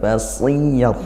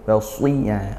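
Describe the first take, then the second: First: The s is light, not thickened. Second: The s is heavy, with the tongue raised. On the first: The speaker calls it wrong. "bukan seperti basiyah" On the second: The speaker calls it right. "seperti itu tanpa pakai bibir"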